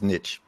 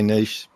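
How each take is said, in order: First: It is said the way it is spelled. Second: It is said the English/Australian way.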